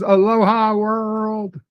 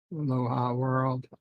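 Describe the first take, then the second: First: Slow, high, sing-song Aloha world; drawn-out greeting. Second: Said in the usual way. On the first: Retold or imitated. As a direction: stretch the greeting out like a lounge host. Reading a chat greeting aloud.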